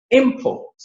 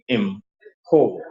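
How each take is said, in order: First: Import with IM high and stressed; noun stress. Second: Import with a low im and stressed PORT; verb stress. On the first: Teacher reading the noun off the screen, first-syllable stress on Import. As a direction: hit IM high, let port fall in Import. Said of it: "capital letters are the stressed parts". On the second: Teacher showing the verb form, second-syllable stress on import. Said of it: "Look at the verb". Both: Shown as a demonstration.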